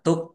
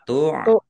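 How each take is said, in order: First: A k sound follows the first vowel. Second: A throaty pharyngeal sound follows the first vowel. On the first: "Kalau tuk kaf" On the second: "jangan keliru ain"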